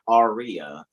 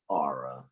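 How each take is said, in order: First: The name is said like 'Aria'. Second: The name is said like 'Aura'. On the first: The speaker calls it wrong. "It's not" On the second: The speaker calls it right.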